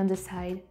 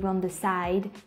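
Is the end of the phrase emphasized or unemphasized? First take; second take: unemphasized; emphasized. First: The end of the phrase is not emphasized. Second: The end of the phrase is clearly emphasized. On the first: "the pronunciation at the end of the word isn't accentuated" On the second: "with other accent it's gonna be"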